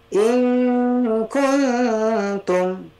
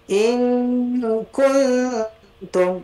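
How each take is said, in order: The two takes are said the same way.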